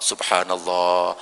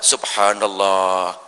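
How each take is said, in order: The two takes are said the same way.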